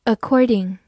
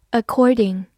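No difference in how they are said.

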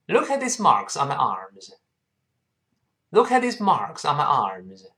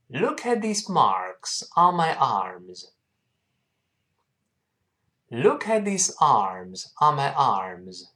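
First: 快读；比慢速示范更连贯紧凑地读整句；一口气连读整句；快一点的领读示范. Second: 慢速领读；放慢速度，逐词拉长地示范朗读；带学生慢慢读整句；慢读示范，词词清楚. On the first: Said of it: "好，我们再读快点". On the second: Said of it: "跟老师慢慢读一下这句话". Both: Shown as a demonstration.

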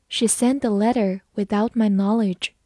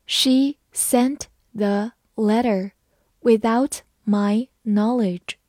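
First: Said in the usual way. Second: Slow, each word clear; slow reading. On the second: Shown as a demonstration. Teacher reads slowly so students can repeat. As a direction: read it slowly for learners. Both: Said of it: "好，我们慢慢来读。".

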